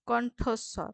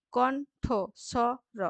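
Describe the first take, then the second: First: Said in the usual way. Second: কণ্ঠস্বর very slow, in four spaced beats; split into syllables. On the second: Shown as a demonstration. Teacher counting syllables, very slow and broken up. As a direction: pull কণ্ঠস্বর apart as কণ, ঠ, স, র. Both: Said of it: "দল বিশ্লেষণ করে".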